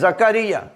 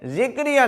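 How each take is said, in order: First: The first syllable has an 'a' vowel. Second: The first syllable has an 'i' vowel. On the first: The speaker calls it right. "यह है जकरिया" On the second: The speaker calls it wrong. "जिक्रिया नहीं है"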